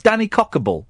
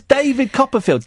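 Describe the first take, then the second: First: "Danny Cockable" in place of David Copperfield; mimicked garbled name, "Danny Cockable"; child's mispronunciation. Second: Said in the usual way. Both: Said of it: "couldn't say David Copperfield".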